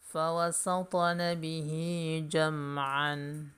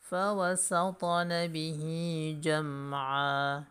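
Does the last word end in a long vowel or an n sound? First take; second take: n sound; long vowel. First: The last word ends with an n sound. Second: The last word ends with a long vowel.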